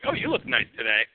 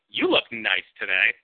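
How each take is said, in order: First: It sounds like a sincere, friendly compliment. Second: It sounds ambiguous, possibly cold or sarcastic.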